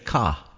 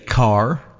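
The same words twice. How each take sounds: First: It is said in a Boston accent. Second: It is said in a general, non-Boston accent. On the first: "Someone from Boston may say car" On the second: "you may say car"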